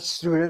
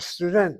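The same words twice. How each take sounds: First: The word has an English pronunciation. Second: The word has a Hebrew pronunciation. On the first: The speaker calls it wrong. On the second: The speaker calls it right.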